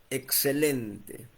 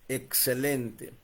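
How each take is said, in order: Both takes have the same delivery.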